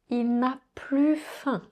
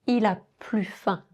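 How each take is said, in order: First: The negative particle is pronounced fully. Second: The negative particle is dropped entirely.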